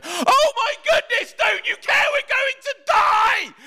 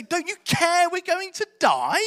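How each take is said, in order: First: Very high, loud, drawn-out terrified shout; shrieking desperate protest; panicked scream. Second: High, drawn-out indignant question; incredulous protest. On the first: Acted. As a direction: scream it in full panic at a sleeper. Acting out terrified disciples in storm. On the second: Retold or imitated. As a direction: ask in stretched-out disbelief, without shouting. Repeating the disciples' bold question.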